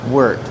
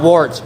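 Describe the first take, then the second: First: The vowel rhymes with the one in shirt. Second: The vowel rhymes with the one in wart. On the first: The speaker calls it right. "it's pronounced like shirt" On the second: The speaker calls it wrong. "Not wart"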